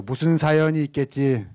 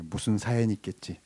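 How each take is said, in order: First: Projected, evenly held call to echo; louder congregational prompt. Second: Said in the usual way. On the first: Shown as a demonstration. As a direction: say it out big so the crowd repeats it. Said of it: "야, 좀 크게 해보세요". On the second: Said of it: "[name]의 노래 가사입니다".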